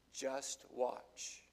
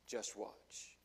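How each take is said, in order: First: Said in the usual way. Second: Low unvoiced whisper; whispered warning. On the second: Real, not acted. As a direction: drop to a hushed warning. Repeated softly as whisper.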